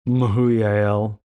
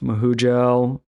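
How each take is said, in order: First: The middle consonant is a Y sound. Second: The middle consonant is a J sound.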